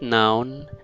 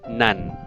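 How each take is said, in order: First: The vowel sounds like the one in 'town'. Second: The vowel sounds like the one in 'fun'. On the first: The speaker calls it wrong. "Not noun" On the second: The speaker calls it right.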